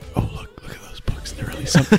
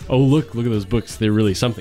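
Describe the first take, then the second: First: It is said in a whisper. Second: It is said in a normal voice.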